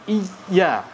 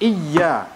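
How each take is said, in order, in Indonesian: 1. Tekanannya jatuh pada vokal pertama. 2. Tekanannya jatuh pada suku kata kedua yang hurufnya digandakan. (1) "bukan huruf a. Jadi bukan iya" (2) "yang ana ber adalah huruf ya yang ada syiddahnya"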